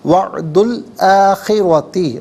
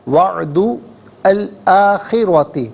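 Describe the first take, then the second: First: The words run together, dropping the article vowel. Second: The words are said separately, keeping the article vowel.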